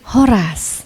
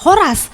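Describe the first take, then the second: First: The greeting is said gently and softly. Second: The greeting is said firmly and forcefully. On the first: "lebih lembut. ... kalau Mandailing Horas" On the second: "Batak Toba Horas"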